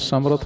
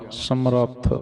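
First: The r sound is short and single. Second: The r sound is held and doubled. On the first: The speaker calls it wrong. "ਸਮਰੱਥ ਨਹੀਂ ਕਹਿਣਾ" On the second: The speaker calls it right. "ਰਾਰੇ ਤੇ ਅਧਕਲਾਉਣੀ ਆ"

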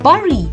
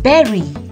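First: The word does not rhyme with 'berry'. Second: The word rhymes with 'berry'. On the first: The speaker calls it wrong. "When I was a kid, I used to read this word as bury" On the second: The speaker calls it right. "it's bury"

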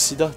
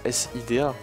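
First: It is said as a single word. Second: It is spelled out letter by letter. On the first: The speaker calls it right. "tu prononces Sida" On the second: The speaker calls it wrong. "tu prononces pas S-I-D-A"

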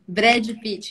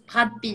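First: The name is said with a Brazilian accent. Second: The name is said with a French accent.

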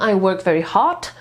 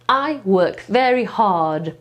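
First: The last word ends in a voiceless t. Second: The last word ends in a voiced d. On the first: It sounds like saying heart instead of hard. The speaker calls it wrong. "to znaczy, że ja pracuję bardzo serce" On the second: It means working with great effort. The speaker calls it right. "Więc I work very hard"

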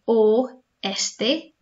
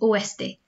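First: The word is said slowly. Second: The word is said fast.

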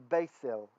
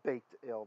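First: The consonant after the vowel is an s sound. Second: The consonant after the vowel is a t sound. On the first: "we'd say s, it'd be beisel" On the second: This is how it would be read with a dot. "if it had a dot, it'd be baked ale"

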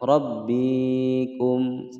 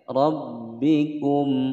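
First: A vowel is drawn out long. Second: The vowels are kept short. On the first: The speaker calls it wrong. "Salah jika membaca rabbikum" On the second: The speaker calls it right. "pendek saja"

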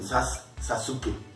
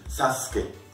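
First: The u vowel is clearly pronounced. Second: The u vowel is nearly silent. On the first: The speaker calls it wrong. "no dicen Sasuke" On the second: The speaker calls it right. "dicen Sasuke, porque la U es muy suavecita"

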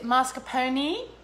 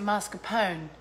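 First: The final E is pronounced as a syllable. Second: The final E is silent. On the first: "do I pronounce the E at the end?" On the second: "Do I just say pone?"

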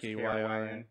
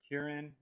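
First: The name is spelled out letter by letter. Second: The name is said as one word. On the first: "if you just say the letters KRYN" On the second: "I don't know if it's Kieran"

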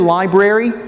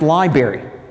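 First: The word is pronounced the Northern way. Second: The word is pronounced the local Southern way. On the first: The speaker is an outsider from the North. The speaker calls it wrong. "If you say library, stupid Yankee" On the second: The speaker is a local. The speaker calls it right. "In Charlotte, North Carolina, is pronounced library"

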